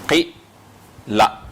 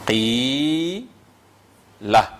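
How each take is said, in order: First: The first vowel is short. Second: The first vowel is long.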